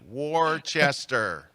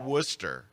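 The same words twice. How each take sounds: First: It is said with three syllables, as spelled. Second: It is said with two syllables, rhyming with rooster. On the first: "it's so easy to just pronounce it phonetically" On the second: "Like rooster, it would be"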